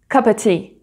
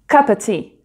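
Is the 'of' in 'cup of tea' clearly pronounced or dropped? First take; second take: dropped; dropped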